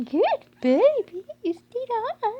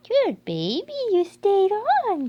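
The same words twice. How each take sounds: First: Drawn-out loud praise; gushing praise again. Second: Loud, high, slow gushing praise. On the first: Owner repeating the praise to the puppy, loud and slow. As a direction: keep the praise going, slow. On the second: Owner gushing praise at the puppy, high and slow. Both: Real, not acted.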